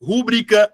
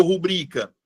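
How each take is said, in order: First: "Rúbrica" with the stress on RÚ; stress on first syllable. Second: "rubrica" with the stress on BRI; stress on middle syllable. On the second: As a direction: lean on the second syllable of "rubrica". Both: Shown as a demonstration. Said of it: "palavras que geram muita dúvida".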